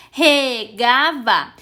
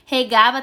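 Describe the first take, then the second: First: "Regava" slowly broken into syllables; sílaba por sílaba. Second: Said in the usual way. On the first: Shown as a demonstration. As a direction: say "Regava" one slow syllable at a time. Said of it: "Regava tem três sílabas". ("Regava" devagar, separando as sílabas) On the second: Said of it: "tem três sílabas".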